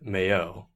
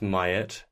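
First: The surname is said in a French way. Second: The surname is said in a Midwestern American way. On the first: This is how people from France say it. "Or if you're from France" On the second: This is how people from Wisconsin or Minnesota say it. "Unless it you're from Wisconsin or Minnesota"

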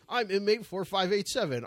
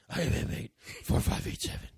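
First: It is said in a normal voice. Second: It is said in a Batman impression voice.

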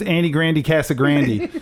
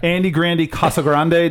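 First: Casagrande is said to rhyme with Grandy. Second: Casagrande is said without rhyming with Grandy. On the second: "it doesn't work if you pronounce it correctly"

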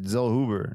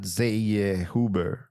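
First: The name is said with a German-sounding pronunciation. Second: The name is said with a Spanish-sounding pronunciation. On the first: This is how the name's owner says it. The speaker calls it right. "He pronounced it Zellhuber" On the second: This is not how the name's owner says it. The speaker calls it wrong. "not Zellhuber"

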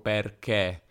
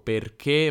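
First: The final e vowel is open. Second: The final e vowel is closed. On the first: This is how the speaker naturally talks. "ma dico perché" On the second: This is the standard pronunciation. "Non dico perché"

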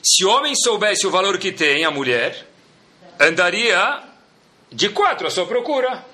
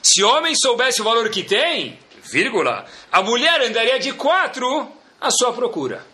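First: There is no pause right after 'tem'. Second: There is a pause right after 'tem'.

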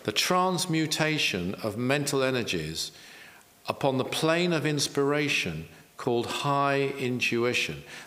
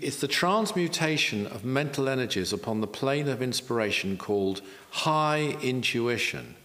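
First: It is said slowly. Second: It is said at a normal pace.

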